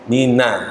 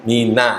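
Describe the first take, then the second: The two takes are said the same way.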